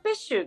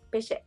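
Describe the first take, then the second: First: It is said with a held consonant, 'pes-shu'. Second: It is said as two short syllables, 'pe-she'. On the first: This is the original French pronunciation. "本当はペッシュがフランス語で桃なんですけど" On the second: This is an accepted alternative pronunciation. "ペシェって発音もありで"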